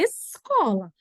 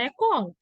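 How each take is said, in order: First: The S is sounded before the C. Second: The S is dropped before the C. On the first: The speaker calls it right. "a pronúncia correta dessa palavra é escola" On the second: The speaker calls it wrong. "parece uma criancinha falando isso"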